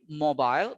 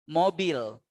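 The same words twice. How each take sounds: First: The second vowel is an 'eye' diphthong. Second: The second vowel is a plain 'e' sound. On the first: This is the English way of saying it. "in English, ... we play with the eye, ... with the diphthong" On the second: This is the Indonesian way of saying it. "But in Indonesia, just say E"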